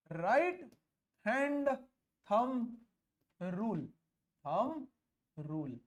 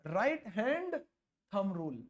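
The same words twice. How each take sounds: First: Long pause after each word; isolated words, spaced-out dictation; dictating word by word. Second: Said in the usual way. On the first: Real, not acted. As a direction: give note-takers time on every word. Dictates the rule's name for copying.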